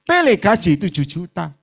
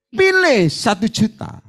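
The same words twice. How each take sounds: First: Said in the usual way. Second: Slow, weighty command. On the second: Retold or imitated. Pastor voicing God's choice to the congregant, slow and weighty. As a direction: lay down God's choice slowly.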